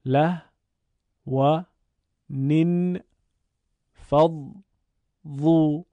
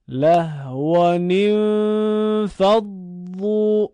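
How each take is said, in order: First: له و نین فض ظو said as separate beats; syllable by syllable. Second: Slow, loud Quranic recitation of له و نین فض ظو, fully linked; joined recitation. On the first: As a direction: sound out each syllable with a pause. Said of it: "بخشخوانی رو انجام دادیم". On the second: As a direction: chant له و نین فض ظو in one flowing line. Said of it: "بعد به صورت پیوسته بخونید". (قرائت پیوسته و بلند) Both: Shown as a demonstration.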